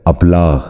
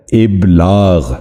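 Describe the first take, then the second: First: ابلاغ wrongly opened with an "a", ab-laagh; mispronunciation. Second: ابلاغ slowly, opening on a short "i": ib-laagh; correct pronunciation. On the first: Teacher showing viewers the common error, ابلاغ mispronounced as ab-laagh. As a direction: say ابلاغ with a short "a" instead of "i" at the start. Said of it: "جو غلط تلفظ ہے". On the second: Teacher modelling for viewers the correct ابلاغ, slow ib-laagh. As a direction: draw out ابلاغ as ib-laagh, with "i" first. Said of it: "درست تلفظ ہے". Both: Shown as a demonstration.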